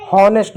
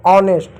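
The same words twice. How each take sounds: First: हॉनेस्ट with a clear h; H pronounced. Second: ऑनेस्ट starting on the vowel; silent H. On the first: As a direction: sound the H in हॉनेस्ट. (एच बोलकर "हॉनेस्ट") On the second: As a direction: leave off the h in ऑनेस्ट. (एच silent रखकर "ऑनेस्ट") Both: Shown as a demonstration. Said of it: "हॉनेस्ट नहीं".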